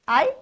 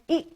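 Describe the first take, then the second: First: It is a long gliding vowel, like 'eye'. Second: It is a short clipped vowel, like 'ih'. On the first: This is the letter's name. "its name" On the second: This is the letter's sound. "its sound"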